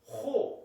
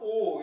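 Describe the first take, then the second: First: The word begins with an h sound. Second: The word begins directly with a vowel. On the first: "H를 넣어서 호 이렇게 발음하라는 거죠" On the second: "강순표가 없었으면 그냥 오 이렇게 되는데"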